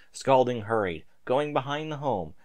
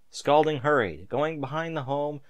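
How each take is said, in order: Both takes have the same delivery.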